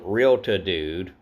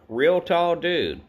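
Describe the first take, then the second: First: The first part is run together as realta. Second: The first part is said as real tall. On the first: The speaker calls it wrong. "I was mispronouncing this character's name. I've been saying Realta Dude" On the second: The speaker calls it right. "it says Real Tall Dude"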